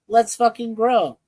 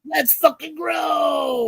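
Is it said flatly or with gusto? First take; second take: flatly; with gusto. First: It is said flatly, without energy. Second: It is said loudly, with lots of energy.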